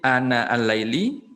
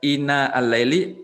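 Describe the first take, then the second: First: The first word begins with an 'a' vowel. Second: The first word begins with an 'i' vowel. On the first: "dan juga dengan fathahnya" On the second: "dengan kasrah hamzah"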